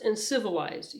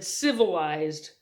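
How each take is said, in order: First: Said in the usual way. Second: Civilized, slow and deliberate, each syllable weighed; teacher stressing civilized with slow care; careful emphasis. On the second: Acted. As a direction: lean on civilized, spelling it out slowly. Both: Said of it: "emphasized the word very carefully".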